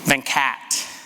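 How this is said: The name is said the Americanized way.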